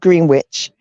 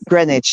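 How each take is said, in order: First: It is said the American way. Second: It is said the British way. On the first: The speaker calls it wrong. "not Greenwich" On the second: The speaker calls it right. "We pronounce it Greenwich"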